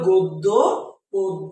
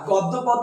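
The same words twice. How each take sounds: First: The first vowels are a rounded 'o' sound. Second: The first vowels are an open 'aw' sound. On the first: The speaker calls it right. "এটা উচ্চারণ হবে গদ্য পদ্য" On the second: The speaker calls it wrong. "গদ্য পদ্য নয়"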